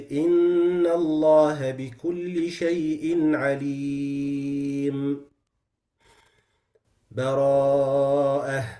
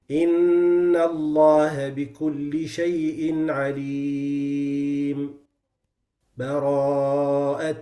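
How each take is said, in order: First: There is a long pause with a breath. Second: There is a brief pause without a breath. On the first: "I take a breath between the two and I take enough time" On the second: "the sect is short and quick and you don't take a breath"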